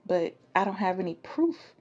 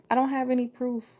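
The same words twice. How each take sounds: First: Said in the usual way. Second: "don't" pushed higher and louder; emphatic repeat. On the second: Shown as a demonstration. Speaker insists she has no proof, "don't" stressed higher. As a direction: hit "don't" harder on the repeat.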